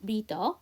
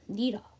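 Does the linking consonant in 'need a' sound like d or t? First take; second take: d; t. First: The d links smoothly into the following vowel. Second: The linking d is weakened toward a t. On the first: "need 다음에 어니까 연음하면서" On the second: "D 사운드는 T 사운드와 사촌이니까 한 번 더 약화할게요"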